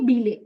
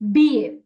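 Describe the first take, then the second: First: The double L is sounded as an l. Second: The double L is sounded like a y. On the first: The speaker calls it wrong. "You never say bile" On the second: The speaker calls it right. "it's B A"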